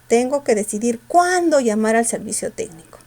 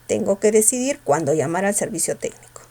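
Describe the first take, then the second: First: The word cuándo is said with strong force. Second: The word cuándo is said without force.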